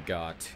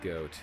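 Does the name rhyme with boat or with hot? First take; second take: hot; boat. First: The vowel is short, rhyming with hot. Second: The vowel is long, rhyming with boat. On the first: "Or Got" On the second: "Goat. Or Got. I don't know how you say it"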